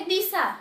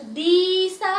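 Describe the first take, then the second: First: दिशा with a brief first vowel; short vowel. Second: दिशा stretched as "deee-sa"; wrong long vowel. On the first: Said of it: "क्या हम पढ़ेंगे? दिशा". (दिशा, छोटी इ के साथ) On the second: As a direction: drag out the first vowel of दिशा. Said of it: "आपने बड़ी ई लगा दिया तो". (दिशा में दी को लंबा खींचकर) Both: Shown as a demonstration.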